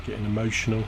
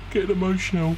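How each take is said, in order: First: Said in the usual way. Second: High-pitched pretend choking-up; mock emotional. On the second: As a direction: play at getting emotional, pitched way up. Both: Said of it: "I don't know why I'm getting emotional".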